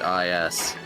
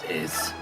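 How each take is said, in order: First: The name is spelled out as two letters. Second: The name is said as one word. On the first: The speaker calls it wrong. "Many years of us calling it I S" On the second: The speaker calls it right. "it all along, it was is"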